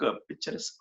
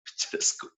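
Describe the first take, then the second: First: Said in the usual way. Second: Laughing. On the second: Real, not acted. Laughs at own stumbling.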